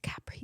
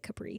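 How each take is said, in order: First: It is said the Italian way. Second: It is said the Midwestern American way.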